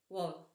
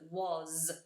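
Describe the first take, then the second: First: The word ends with no friction at all. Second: The word ends with a buzzing z sound. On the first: The speaker calls it wrong. "We had no friction at the end of that sound" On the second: The speaker calls it right. "The S becomes a Z sound because it's voice"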